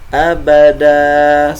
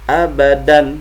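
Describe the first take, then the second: First: The word ends in a long vowel. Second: The word ends with an n sound.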